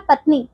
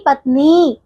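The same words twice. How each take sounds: First: पत्नी with short final i; wrong short vowel. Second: पत्नी with long final nee; long final vowel. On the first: Teacher showing wrong पत्नी, short final i. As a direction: cut the end of पत्नी short. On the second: Teacher correcting pupils, पत्नी with long nee. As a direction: stretch the last ee of पत्नी. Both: Shown as a demonstration. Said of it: "पत्नी नहीं पत्नी".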